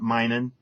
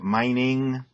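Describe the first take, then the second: First: The ending is said as a plain n sound. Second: The ending is said with a full ng sound. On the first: The speaker calls it wrong. "not minin'" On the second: The speaker calls it right. "Get the I N G sound"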